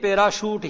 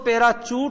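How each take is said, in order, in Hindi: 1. बीच का व्यंजन 'sh' की तरह बोला जाता है। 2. बीच का व्यंजन 'ch' की तरह बोला जाता है। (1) "पैराशूट ही बोलना पड़ेगा" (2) "पैराचूट न बोल करके"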